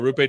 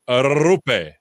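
First: The R at the start is not rolled. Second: The R at the start is rolled. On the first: The speaker calls it wrong. "So I've been saying it wrong" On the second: The speaker calls it right. "Roll that R's"

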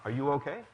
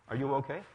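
Both takes have the same delivery.

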